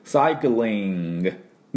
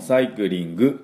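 First: The ending ng is swallowed back in the throat. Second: The ending has a clearly released g sound. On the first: The speaker calls it right. "で終わり。まるで喉になんか飲み込む、飴玉飲み込むような感じで" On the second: The speaker calls it wrong. "サイクリングのNG もサイクリングではなくて"

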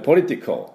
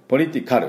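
First: The last syllable's vowel is barely pronounced. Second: The last syllable's vowel is fully pronounced. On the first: The speaker calls it right. "A はほとんど発音しません" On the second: The speaker calls it wrong. "っていうふうには出さない"

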